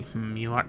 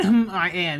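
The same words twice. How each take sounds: First: Said in the usual way. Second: Loud, high mocking echo; incredulous mock quote. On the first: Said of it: "What do you mean, "Hmm, I am"?". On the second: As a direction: echo it back in disbelief. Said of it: "What do you mean".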